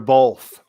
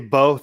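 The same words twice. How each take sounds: First: The word is said with an L sound. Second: The word is said without an L sound.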